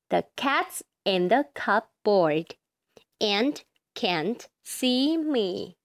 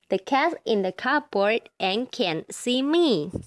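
First: It is read slowly. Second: It is read very fast.

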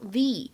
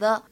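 First: The word ends in a long 'ee' vowel. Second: The word ends in a short 'uh' vowel. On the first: The speaker calls it right. "而应该读成the" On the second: The speaker calls it wrong. "不能读成the"

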